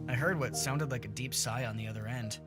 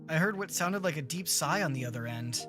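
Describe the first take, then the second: First: It is read like neutral storytelling narration. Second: It is read like a character speaking aloud. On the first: It describes events rather than speech. The speaker calls it right. "that was more of a narration" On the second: A character is saying it out loud. The speaker calls it wrong. "I read that as if K G was saying that out loud"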